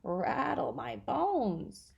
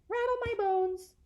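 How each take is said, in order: First: It is said in a spooky voice. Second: It is said in a plain reading voice.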